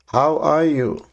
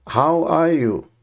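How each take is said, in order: Both takes have the same delivery.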